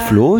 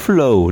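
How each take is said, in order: First: The vowel is a plain German-style long o. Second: The vowel is an English-style ow glide. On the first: The speaker calls it wrong. "Also nicht der Flow" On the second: The speaker calls it right. "sondern der Flow, das englische Wort Flow"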